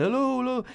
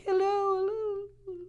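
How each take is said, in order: First: High, mock yelled hellos; giant yelling. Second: Very high, soft, slow squeak; tiny mouse voice. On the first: Teacher voices the giant yelling out across the neighborhood. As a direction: yell it out like a giant. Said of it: "the Jolly Green Giant is yelling out". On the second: Retold or imitated. Teacher voices the little mouse device calling back weakly. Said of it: "this little mouse is like".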